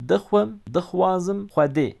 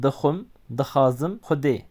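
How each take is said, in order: First: Hüde said with a rounded xw at the start; doğru telaffuz. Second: Wrong pronunciation, hüde said as plain ode; hüde without the xw sound, like ode; yanlış telaffuz. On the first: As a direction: correct Kurmanji xw sound in hüde. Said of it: "Lütfen bu kelimeleri böyle telaffuz edin". (hüde kelimesini xw sesiyle, doğru telaffuz et) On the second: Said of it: "yanlış telaffuz etmeyin". (hüde kelimesini xw sesi olmadan, yanlış telaffuz et) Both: Shown as a demonstration.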